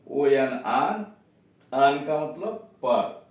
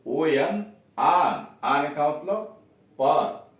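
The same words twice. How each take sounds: The two takes are said the same way.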